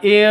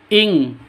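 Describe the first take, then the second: First: The syllable ends in a plain vowel. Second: The syllable ends in a nasal ng sound. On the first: The speaker calls it wrong. "bukan i, bukan seperti itu samarnya" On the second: The speaker calls it right. "ing seperti itu"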